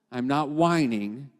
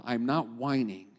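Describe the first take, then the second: First: Slowed, rising on whining; a slow, deliberate, steadier restatement; slow firm repeat. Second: Said in the usual way. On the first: Shown as a demonstration. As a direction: say it slowly, lift whining.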